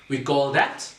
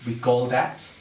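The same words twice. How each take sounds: The two takes are said the same way.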